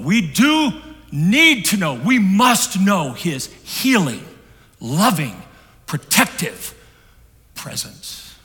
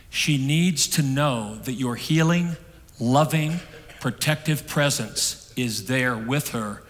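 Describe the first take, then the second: First: Much higher and louder, slow, over music; impassioned preaching. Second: Slow, each word weighed: healing, loving, protective; slow and deliberate. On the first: Real, not acted. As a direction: cry out "healing, loving, protective presence" with rising fervour. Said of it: "preacher sings out the counselor's words". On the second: Retold or imitated. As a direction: lay out "healing, loving, protective" slowly and evenly. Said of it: "The counselor said".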